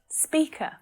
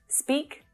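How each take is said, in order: First: An extra vowel is added after the final consonant. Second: The word ends cleanly on its final consonant. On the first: The speaker calls it wrong. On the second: The speaker calls it right.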